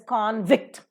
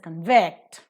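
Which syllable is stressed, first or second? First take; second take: first; second. First: The stress is on the first syllable. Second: The stress is on the second syllable. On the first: The speaker calls it wrong. "you don't pronounce it as convict" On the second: The speaker calls it right. "you pronounce it as convict"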